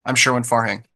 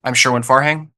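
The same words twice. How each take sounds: First: "Farhang" falling at the end; downward inflection. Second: "Farhang" lifted at the end; upward inflection. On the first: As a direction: close on "Farhang" as a quiet statement. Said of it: "And now with a downward". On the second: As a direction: let "Farhang" rise like a question. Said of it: "Do it with your first and last name". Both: Shown as a demonstration.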